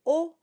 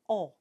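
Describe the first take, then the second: First: "O" with rounded lips, no nasal air; a nice round oral "O". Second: "O" nasalized like French on; nasal O. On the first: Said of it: "a nice round O". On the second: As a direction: round "O" sent through the nose. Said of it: "gets nasalized". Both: Shown as a demonstration.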